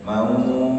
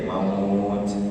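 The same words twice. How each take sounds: First: The final t is light and not overdone. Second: The final t is overdone and strongly released. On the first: The speaker calls it right. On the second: The speaker calls it wrong.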